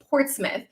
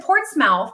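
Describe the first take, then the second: First: The ending is said as a reduced 'muth'. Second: The ending is said as a full 'mouth'. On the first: The speaker calls it right. "Tina, stop. It's Portsmouth" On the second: The speaker calls it wrong. "everybody at the base in Alaska was making fun of me"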